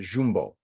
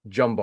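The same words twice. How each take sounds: First: "Jumbo" said as ZHOOM-boh; local Portuguese pronunciation. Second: Said in the usual way. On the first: Shown as a demonstration. Showing how locals pronounce the store name, "Jumbo" as ZHOOM-boh. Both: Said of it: "or as they pronounce it".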